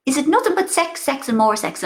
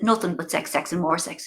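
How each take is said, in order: First: Mother's voice. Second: Said in the usual way. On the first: Retold or imitated. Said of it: "she goes". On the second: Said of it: "And I said".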